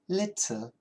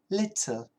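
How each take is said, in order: First: The middle T is a clear T sound. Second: The same.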